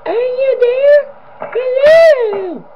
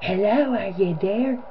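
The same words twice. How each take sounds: First: Very high, slow eerie animatronic wail; high-pitched creepy voice. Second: Higher, softer, eerie rising call; soft demented woman voice. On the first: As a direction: stretch it out in a piercing high ghostly call. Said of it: "Poe sounds like this". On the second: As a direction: coo it softly like a creepy deranged woman. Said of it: "sounds like this". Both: Retold or imitated.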